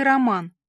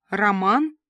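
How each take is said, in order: First: Said in the usual way. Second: "Роман" echoed with a rising questioning tune; interested question. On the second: A narrator's reading. Listener echoes Rita's word back, an interested question. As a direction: ask "Роман" back, lifting the pitch at the end. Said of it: "заинтересовалась я".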